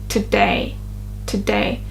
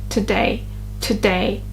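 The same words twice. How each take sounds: The two takes are said the same way.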